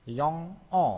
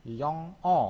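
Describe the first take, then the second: No difference in how they are said.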